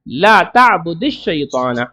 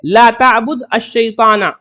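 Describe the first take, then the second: First: The d takes an i vowel and joins the next word. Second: The d ends without a vowel before the next word. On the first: This is how it is actually read aloud. "इसको जोड़ने के लिए इसको कसरा दे देंगे" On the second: This is the underlying form before joining. "असल तो यह है"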